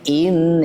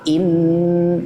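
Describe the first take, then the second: First: The nasal sound is cut short without hum. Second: The nasal sound is held with a long hum. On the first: The speaker calls it wrong. "in niku salah langsung" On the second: The speaker calls it right.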